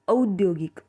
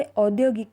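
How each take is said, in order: First: औद्योगिक opening on a long stressed au; Marathi drawn-out au. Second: Said in the usual way. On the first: Shown as a demonstration. Teacher to learners, औद्योगिक with a long stressed au. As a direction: lean on and stretch the औ of औद्योगिक. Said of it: "ओ पे थोड़ा और ज़ोर देंगे और थोड़ा और लंबा खींचेंगे". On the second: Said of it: "Hindi में इसे औद्योगिक कहते हैं".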